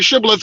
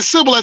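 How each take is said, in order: First: The word begins with an sh sound. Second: The word begins with a plain s sound. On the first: Our own group says it this way. "we say Shibboleth, which is the correct way" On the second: The other group says it this way. "they say Sibboleth"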